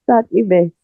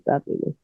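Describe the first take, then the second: First: Said in the usual way. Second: Sadly missed, breathed almost silent; fading whisper. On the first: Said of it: "Sadly, sadly missed". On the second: Real, not acted. Remembering [name], fading whisper. Repeating a tribute, fading away.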